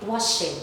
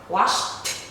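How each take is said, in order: First: The ending is said as an extra syllable. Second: The word ends in a short t sound. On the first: The speaker calls it wrong. "We don't say washed" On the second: The speaker calls it right. "this is the ending sound"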